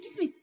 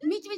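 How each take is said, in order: First: The word begins with a k sound. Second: The word begins with an m sound. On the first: The speaker calls it right. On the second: The speaker calls it wrong.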